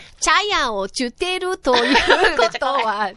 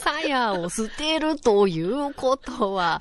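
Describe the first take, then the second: First: The s sounds are replaced by ch sounds. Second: The words begin with a clear s sound.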